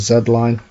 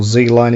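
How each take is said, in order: First: The letter is said the British way, 'zed'. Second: The letter is said the American way, 'zee'.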